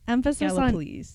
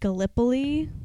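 First: The stress is on the first syllable. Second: The stress is on the second syllable. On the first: The speaker calls it right. "Emphasis on the first syllable" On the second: The speaker calls it wrong. "I would have pronounced it Gallipoli had I not known better"

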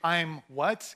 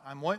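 First: The phrase is said slowly and deliberately. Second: The phrase is said quickly and offhandedly. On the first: It sounds like a strange, deliberate question. The speaker calls it wrong. "You can't say" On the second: It sounds like repeating something back. The speaker calls it right. "you got to say it fast"

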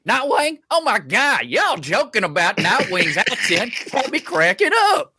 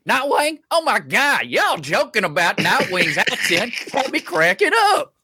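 First: It is read imitating Nightwing's voice and accent. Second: The same.

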